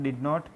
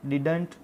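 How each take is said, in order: First: It is said as two full separate words. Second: It is said as one contracted word. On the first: "these are the pronunciation: did not" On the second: "We call it didn't"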